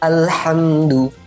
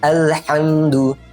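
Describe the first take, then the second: No difference in how they are said.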